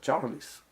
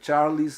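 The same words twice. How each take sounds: First: The final L sounds like a vowel 'ou'. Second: The word ends with an added 'lee' sound. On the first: The speaker calls it right. "A pronúncia desse L é ou" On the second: The speaker calls it wrong. "a pronúncia do L E corresponde a Lee"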